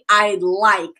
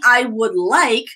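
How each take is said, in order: First: Would is shortened to a d sound. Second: The word would is said in full. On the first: "you can say ... a contraction" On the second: "instead of saying"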